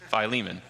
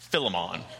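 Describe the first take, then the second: First: The I vowel in the first syllable is long. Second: The I vowel in the first syllable is short. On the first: The speaker calls it right. "it is pronounced Philemon... the I is elongated" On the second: The speaker calls it wrong. "It is not pronounced Philemon... It is not a shortened I"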